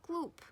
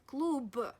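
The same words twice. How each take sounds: First: The final consonant is a voiceless p. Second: The final consonant is a voiced b. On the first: The speaker calls it right. "You should pronounce it as p" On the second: The speaker calls it wrong. "Not klub"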